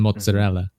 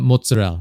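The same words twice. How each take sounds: First: It is said the Italian way, with full A. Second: It is said the New York Italian-American way.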